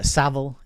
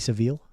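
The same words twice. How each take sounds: First: The name is said with a British pronunciation. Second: The name is said with an American pronunciation. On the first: The speaker calls it right. "Savile is how we usually say it" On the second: The speaker calls it wrong. "sometimes Americans pronounce it Jimmy Savile"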